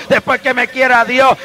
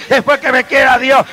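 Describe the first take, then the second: No difference in how they are said.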